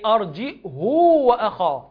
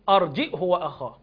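First: The vowel after the 'h' is lengthened. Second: The vowel after the 'h' is short. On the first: "وبيقرأ بالصلة لتوصل" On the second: "أبو عمرو يقول أرجئه وأخاه من غير صلة"

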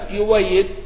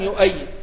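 First: The hamza is replaced by a w sound. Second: The hamza is kept as a glottal stop. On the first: This is one reciter's reading, with the hamza replaced. "قرأ ابن جماز يويد" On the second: This is the other reciter's reading, with the hamza kept. "وقرأ ابن وردان يؤيد"

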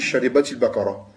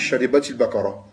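First: The words run together, joined by an 'i' vowel. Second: The same.

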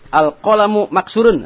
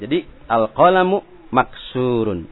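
First: The vowel in the middle of maksurun is short. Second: The vowel in the middle of maksurun is long. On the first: The speaker calls it wrong. "salah juga. Karena nanti bisa merubah arti" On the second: The speaker calls it right. "ya harus baca panjang seperti maksurun"

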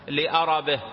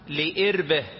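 First: The word is said as 'li-arabihi', with open vowels. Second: The word is said as 'li-irbihi', without a vowel after r. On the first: It refers to his need and desire. "بفتح الهمزة وفتح الراء" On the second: It refers to his bodily organ. "بكسر الهمزة وتسكين الراء"

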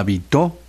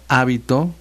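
First: The stress is on the last syllable. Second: The stress is on the first syllable. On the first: "con acento en la O" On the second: "con acento en la A"

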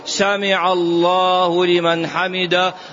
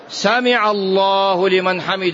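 First: The phrase is said slowly and calmly. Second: The phrase is said quickly and hurriedly. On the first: The prayer is performed with humility. The speaker calls it right. "وإذا اعتدل قائما خشوع" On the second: The prayer is rushed and cut short. The speaker calls it wrong. "المذهب يقول مثل الصاروخ"

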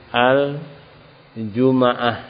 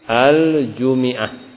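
First: The m is followed by an a vowel. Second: The m is followed by an i vowel. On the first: This is a reading reported from al-Farra. "Al-Farra membaca mimnya dan fathah" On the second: This is a reading reported by az-Zajjaj. "dikasokan mimnya"

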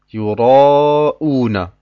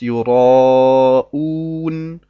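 First: The word ends with a final vowel after n. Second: The word ends abruptly on the n consonant. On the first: The reader continues without stopping. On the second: The reader stops on this word.

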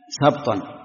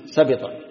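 First: The b has no vowel after it. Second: The b is followed by an i vowel. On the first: "بسكون الباء" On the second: "ويحتمل أن تكون بالكسر"

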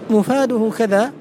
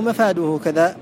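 First: The first vowel is pronounced as 'u'. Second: The first vowel is pronounced as 'a'. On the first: The speaker calls it right. "بضم الميم" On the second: The speaker calls it wrong. "أو فتحها"

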